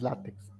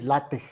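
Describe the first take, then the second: First: It ends with a plain ks sound. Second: It ends with a raspy aspirated j sound. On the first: The speaker calls it wrong. "No es látex" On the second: The speaker calls it right. "la pronunciación es LaTeX, si ven con la, con la G griega"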